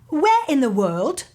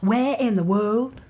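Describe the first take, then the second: First: It is said in the speaker's usual accent. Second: It is said in a Southern accent.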